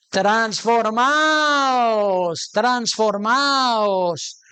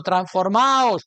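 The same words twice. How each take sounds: First: Each syllable of transformaos stretched very slowly; drawn-out transformaos. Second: Said in the usual way. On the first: Shown as a demonstration. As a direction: let transformaos ring out, long and slow. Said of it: "preacher stretches key word". (transformaos alargado, sílaba a sílaba) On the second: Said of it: "same word said again".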